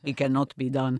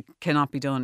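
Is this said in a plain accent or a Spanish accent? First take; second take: Spanish; plain. First: It is said in an imitated Spanish accent. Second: It is said in the speaker's ordinary accent.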